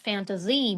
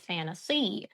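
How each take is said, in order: First: The middle consonant is a buzzing z sound. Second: The middle consonant is a hissing s sound. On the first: The speaker calls it wrong. "in Russian we pronounce it with some Z" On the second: The speaker calls it right. "to make the correct sound"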